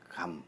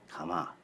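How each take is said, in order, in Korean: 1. 한 음절이고 m 소리로 끝나요. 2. 두 음절이고 모음으로 끝나요. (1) "한국어는 응집 발음의 경향이 강하고" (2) "감을 연진 발음하면 가마"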